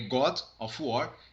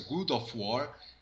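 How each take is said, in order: First: The first word has the vowel of 'god'. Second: The first word has the vowel of 'good'. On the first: The speaker calls it right. "E é God of War" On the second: The speaker calls it wrong. "É muito comum você ouvir a pronúncia Good of War ... está errado"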